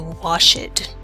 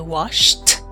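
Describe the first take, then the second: First: The ending is not a plain t sound. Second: The ending is a plain t sound. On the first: The speaker calls it wrong. "we do not say washed" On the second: The speaker calls it right. "we do the t pronunciation. We say washed"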